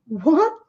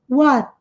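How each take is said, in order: First: Said surprised, with a longer vowel and stronger T. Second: Said plainly, with a soft, subtle T. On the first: "quando demonstram muita surpresa, tende a marcar um pouquinho mais esse T. E se prolonga mais a vogal" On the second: "esse som do T bem sutil"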